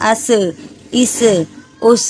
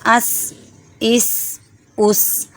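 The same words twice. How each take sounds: First: Each final consonant is moved with an added vowel. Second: Each final consonant stops without any added vowel. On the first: The speaker calls it wrong. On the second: The speaker calls it right.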